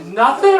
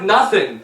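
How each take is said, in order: First: Rising, higher disbelieving question; incredulous student. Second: Said in the usual way. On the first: Retold or imitated. Student questioning teacher about comedy pay, mock disbelief. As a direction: echo it back as a disbelieving question. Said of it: "He's like". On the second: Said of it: "I'm like".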